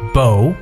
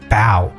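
First: The vowel sounds like the one in 'go'. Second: The vowel sounds like the one in 'cow'. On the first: It names the weapon for shooting arrows. "弓可以叫bow" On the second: It means bending the body forward in greeting. "它有两种发音，有时候可以把它发成为bow，可作为bow 的意思呢就鞠躬的意思"

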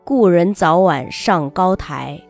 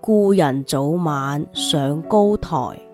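First: It is read in standard Mandarin. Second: It is read in a local Chinese dialect.

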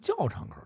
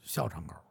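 First: The first syllable is pronounced jiào. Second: The first syllable is pronounced xiào. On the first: This follows the pinyin on the street sign. "这胡同这是有拼音，我知道这念教" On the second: This is the name locals grew up using. "说您不能管这叫校场口"

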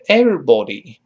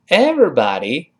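First: It is said in a British accent. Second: It is said in an American accent. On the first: "英式发音是everybody" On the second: "在这是美式发音"

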